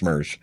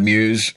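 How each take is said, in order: First: "Meuse" said as "murz", an r-coloured vowel with no "y"; corrected pronunciation. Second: "Meuse" said as "myooz", with a clear "yoo" vowel; wrong pronunciation. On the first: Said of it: "but it's pronounced Meuse". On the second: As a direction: misread "Meuse" like "muse". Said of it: "actually it's pronounced Meuse". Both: Shown as a demonstration.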